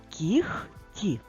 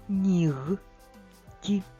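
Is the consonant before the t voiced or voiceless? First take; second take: voiceless; voiced. First: The consonant before t is a voiceless h-sound. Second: The consonant before t is a voiced g-sound. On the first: This is how the word is spoken. "Вимовляємо" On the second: This is how the word is written. "пишемо"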